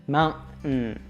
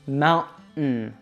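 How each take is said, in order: First: The middle T is stopped, air through nose. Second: The same.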